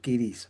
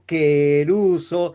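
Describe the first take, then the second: First: It is pronounced with 'ee' vowels, like kirizo. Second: It is pronounced with 'eh' and 'oo', like keruso. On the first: "como el griego entiende quirizo" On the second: "si yo digo queruso, suena diferente"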